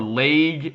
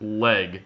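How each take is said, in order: First: The vowel sounds like 'ay'. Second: The vowel sounds like 'eh'. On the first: The speaker calls it wrong. "not L A Y G" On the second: The speaker calls it right. "It's uh it's L E G leg"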